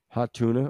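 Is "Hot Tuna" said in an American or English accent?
American. It is said in an American accent.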